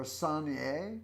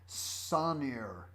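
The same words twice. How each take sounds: First: Sonnier said the French way, sonn-YAY, rising like a question; French-style name. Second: Said in the usual way. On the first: Shown as a demonstration. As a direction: Sonnier with a nasal vowel and an ending like -yay. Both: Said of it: "Or Sonnier?".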